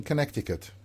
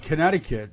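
First: Connecticut with a sounded middle k; hard k in the middle of "Connecticut"; mother's pronunciation. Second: Connecticut with the middle c silent; "Connecticut" with no k before the t; usual pronunciation. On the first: Retold or imitated. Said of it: "She's saying Connecticut". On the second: Shown as a demonstration. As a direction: say "Connecticut" as kuh-NET-i-kit. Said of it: "She's just saying it with a French accent".

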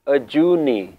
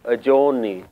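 First: "Ajuni" with an "oo" in the middle; Mool Mantar pronunciation. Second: "Ajoni" with an "oh" in the middle; Shabad pronunciation. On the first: Teacher showing the Mool Mantar pronunciation, "oo" vowel in "Ajuni". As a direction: say "Ajuni" as "uh-JOO-nee". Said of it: "here the pronunciation is". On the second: Teacher showing how Shabads pronounce it, "oh" vowel in "Ajoni". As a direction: say "Ajoni" as "uh-JOH-nee". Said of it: "it will be pronounced". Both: Shown as a demonstration.

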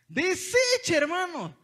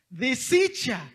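First: Much higher, louder cry of dismay; high, loud outraged repeat; rising dismay. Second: Drawn-out dismayed cry, louder; slow, loud lament; dismayed exclaim. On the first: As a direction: hit it high in disbelief. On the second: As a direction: stretch the word out in dismay. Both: Real, not acted. Dismay at the wrecked box.

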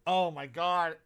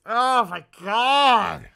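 First: Said in the usual way. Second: Loud, slow, drawn-out disbelief; appalled exclamation. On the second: Real, not acted. Streamer sees toy prices, loud appalled disbelief. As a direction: stretch it out in horror.

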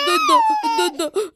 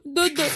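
First: Very high giggly "دودو" with a rising end; baby babble. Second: Said in the usual way. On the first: Acted. Baby Simba babbles to his mother, high and giggly. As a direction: coo like a laughing baby.

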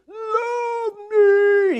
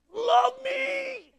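First: High, loud, cartoonish cry; Jim Carrey plea. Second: High, far-off cartoonish shout; Jim Carrey plea. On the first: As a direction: yell it like a desperate buffoon. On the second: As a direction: belt it out like a hammy clown. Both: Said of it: "He's doing the Jim Carrey thing".

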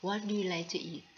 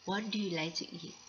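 First: Very slow, careful English repeat; teacher repeating a phrase slowly; slow model sentence. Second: Very slow, careful English demo; teacher modelling a phrase slowly; slow model sentence. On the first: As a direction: say it again slowly for learners to copy. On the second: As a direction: spell it out slowly for learners. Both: Shown as a demonstration. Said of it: "อย่างเช่นถ้าเราอยากจะพูดคำว่า".

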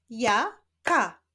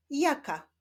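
First: "Ja, ka" as two separate syllables, pause between. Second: Said in the usual way. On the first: Shown as a demonstration. Teacher leading a reading drill, "Ja, ka" split apart. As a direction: break it into "Ja", pause, "ka". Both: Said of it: "łączenia ich w wyrazy".

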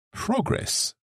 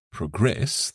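First: Progress stressed on PRO, PROgress; noun stress. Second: Progress stressed on GRESS, proGRESS; verb stress. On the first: Co-host contrasting noun stress on progress. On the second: Co-host contrasting verb stress on progress. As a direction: put the weight on GRESS in progress. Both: Shown as a demonstration. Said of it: "the stress changes".

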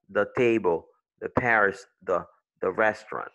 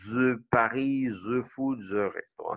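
First: "the" said with a soft voiced D sound. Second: Put-on "the" as "zuh" in a French accent. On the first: Shown as a demonstration. Teacher modelling English TH for French learners, "the" with soft D. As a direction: start each "the" on a light D, never Z. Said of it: "c'est un son D". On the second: Teacher mocking the president's English, thick French accent. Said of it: "tu vas dire comme notre président là".

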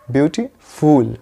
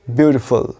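First: "ब्यूटीफुल" with a long full at the end, slow; wrong beautiful. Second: "ब्यूटीफुल" ending in a quick short fal; correct beautiful. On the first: Teacher showing the common mistake, slow and drawn out. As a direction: stretch "ब्यूटीफुल" out with phool. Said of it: "उसको बोलते हैं ब्यूटीफुल". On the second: Teacher modelling the right ending, lower and clipped. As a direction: say "ब्यूटीफुल" as byootifal, last syllable light. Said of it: "correct उच्चारण होगा ये होगा ब्यूटीफुल". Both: Shown as a demonstration.

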